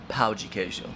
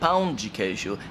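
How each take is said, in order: First: The first vowel is oral, like 'pow'. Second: The first vowel is nasal, like 'pown'. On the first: The speaker calls it wrong. "and not pau de queijo" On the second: The speaker calls it right. "being adamant about her pronunciation of the word pão de queijo"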